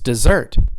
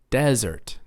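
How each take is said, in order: First: The stress is on the second syllable. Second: The stress is on the first syllable. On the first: It means to abandon. "how about if I stress the second syllable?" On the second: It means a hot, dry place. "It's on the first syllable"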